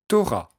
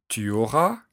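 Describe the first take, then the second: First: The pronoun is shortened to t' before auras. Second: The pronoun tu is said in full. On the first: This is casual everyday speech. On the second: This is the standard form.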